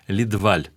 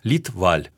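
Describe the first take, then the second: First: Only the last syllable is stressed, French style. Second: Both syllables are stressed, with breathy aspiration. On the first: This is how the owner himself said the name. "французское ударение Федор Иванович предпочитал" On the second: This is how Swedes say the name. "Шведы произносят фамилию фактически с двумя ударениями, с придыханиями"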